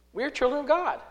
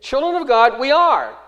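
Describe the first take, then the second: First: Said in the usual way. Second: Put-on loud, raised emphasis on "Children of God" before "we are"; stress on CHILDREN. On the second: Shown as a demonstration. Preacher restores the Greek order for listeners, emphatic. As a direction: hit "Children of God" hard, higher and louder. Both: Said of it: "What's the emphasis?".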